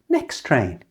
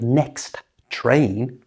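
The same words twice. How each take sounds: First: The T at the end of next is dropped. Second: The T at the end of next is pronounced. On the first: The speaker calls it right. "We don't pronounce the first T" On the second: The speaker calls it wrong. "which is awkward"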